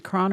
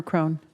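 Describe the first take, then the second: First: CRON with a short open o; short-vowel name. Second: CRONE with a long o; long-vowel name. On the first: Judge checking the counsel's name, Cron with an open o. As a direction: say "Cron" to rhyme with "on". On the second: Judge offering the other reading of counsel's name, Crone with long o. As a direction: say "Crone" to rhyme with "bone". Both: Real, not acted. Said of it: "Is it Cron or Crone".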